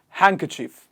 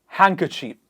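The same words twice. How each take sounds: Both takes have the same delivery.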